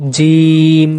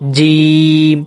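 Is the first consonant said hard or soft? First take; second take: hard; hard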